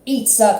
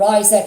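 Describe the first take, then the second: First: The name has a non-English pronunciation. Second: The name has the English pronunciation.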